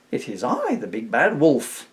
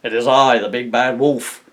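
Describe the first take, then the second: First: Higher, light-hearted wolf announcement. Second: Loud, drawn-out menacing announcement; big bad wolf. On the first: A narrator's reading. Wolf answers the pigs at the door, light-hearted. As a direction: announce yourself lightly, drawing out the name. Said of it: "in a surprisingly light-hearted voice". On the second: Wolf announces himself to the pigs properly, booming. Retake of the wolf's misread announcement.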